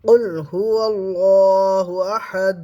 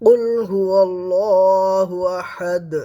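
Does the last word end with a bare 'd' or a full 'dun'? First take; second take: bare d; bare d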